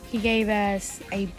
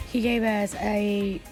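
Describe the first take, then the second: No difference in how they are said.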